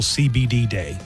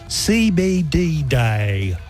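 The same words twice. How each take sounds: First: It is said in a plain everyday accent. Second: It is said in a put-on foreign-sounding accent.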